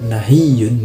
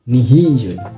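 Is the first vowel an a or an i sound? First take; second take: a; i. First: The first vowel is an a sound. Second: The first vowel is an i sound.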